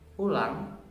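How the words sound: It is said in a mocking, sarcastic tone.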